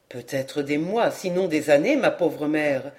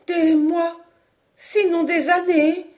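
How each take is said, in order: First: Lower, subdued son; grave, sorry. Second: High, stunned echo of bad news; appalled. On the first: Son warns his mother of a long wait, grave. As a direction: break it gently and gravely. Son breaks bad news gently. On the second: Mother repeats her son's words, appalled. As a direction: repeat it in dismay, pitch raised. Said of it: "répétait madame Caudal atterrée". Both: A narrator's reading.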